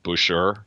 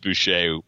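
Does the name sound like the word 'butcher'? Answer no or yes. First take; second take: yes; no. First: The name sounds like the word 'butcher'. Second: The name does not sound like 'butcher'. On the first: The speaker calls it wrong. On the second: The speaker calls it right.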